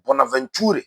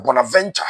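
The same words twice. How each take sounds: First: Bonaventure ending in "too-reh"; Francophone pronunciation. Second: Bonaventure ending in "VEN-cha"; Anglophone pronunciation. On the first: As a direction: say Bonaventure the French-style way, last syllables "tu-re". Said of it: "pronunciation bi wakɔ yɛ Bonaventure". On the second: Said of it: "those of us who speak English". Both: Shown as a demonstration.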